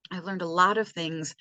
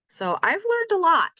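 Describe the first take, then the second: First: Said in the usual way. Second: Much higher, sing-song proud declaration. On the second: Real, not acted. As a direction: announce it up high like a little triumph. Proud summary of learning.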